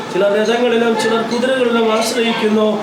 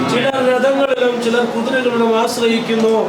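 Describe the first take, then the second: Both takes have the same delivery.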